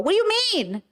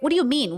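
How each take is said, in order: First: Pitched way up, mocking and incredulous; mocking high-pitched whine. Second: Said in the usual way. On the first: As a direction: throw the question back as a mock. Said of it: "it's kinda asking me, like".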